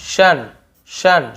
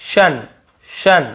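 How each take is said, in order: No difference in how they are said.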